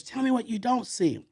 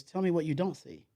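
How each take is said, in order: First: Higher, louder, demanding repeat; cussing out. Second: Said in the usual way. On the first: Retold or imitated. Mentor scolding his protégé, louder. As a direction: press him hard for the answer. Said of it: "this time he uses, he's cussing me out". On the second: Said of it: "He goes".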